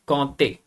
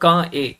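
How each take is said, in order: First: A t sound links the first word to the second. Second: The words are said separately with no t sound. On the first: The speaker calls it right. "इट्स कांते, D plus E" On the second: The speaker calls it wrong. "इट्स नॉट का ए"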